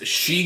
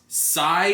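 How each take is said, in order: First: It is pronounced like the word she. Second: It is pronounced like sigh, one syllable. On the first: "I've always been pronouncing it as She Gundam" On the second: "it's Sai, like S A I"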